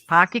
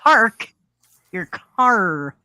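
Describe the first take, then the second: First: The R sounds are dropped. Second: The R sounds are clearly pronounced. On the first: "that's totally New England" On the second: "There's an actual R in there"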